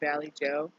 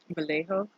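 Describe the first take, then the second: First: The name is said like 'Valley Joe'. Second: The name is not said like 'Valley Joe'. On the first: The speaker calls it wrong. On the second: The speaker calls it right.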